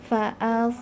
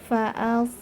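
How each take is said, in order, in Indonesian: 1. Suku kata pertama ringan; hanya s yang berat. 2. Suku kata pertama ringan; hanya s yang berat.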